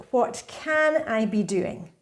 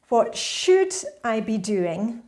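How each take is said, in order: First: Slow, leaning on "can" as an open possibility; stress on can. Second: Slow, leaning on "should" as a burden; stress on should. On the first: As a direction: say "can" as a hopeful option. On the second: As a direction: say "should" like an obligation weighing on you. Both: Shown as a demonstration. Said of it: "but think of it in terms of".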